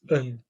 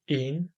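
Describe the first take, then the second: First: The vowel is reduced to a weak, dull sound. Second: The vowel is said as a full, clear vowel. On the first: The speaker calls it right. "when it functions as an article, it will be de, het, and een" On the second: The speaker calls it wrong. "we will not say de of het of een"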